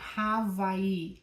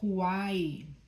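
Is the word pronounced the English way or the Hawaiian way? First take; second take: Hawaiian; English. First: It is pronounced the Hawaiian way. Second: It is pronounced the English way. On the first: "is pronounced Hawaii in Hawaiian" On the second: "we say that in English as Hawaii"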